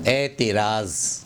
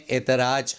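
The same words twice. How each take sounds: First: "اعتراض" slowly as eti-raaz, ending in z; slow, careful etiraaz for "اعتراض"; correct final z. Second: "اعتراض" ending in j, like etraaj; mispronounced final j. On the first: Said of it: "صحیح تلفظ ہے". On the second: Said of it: "ہم لوگ غلط تلفظ کرتے ہیں". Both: Shown as a demonstration.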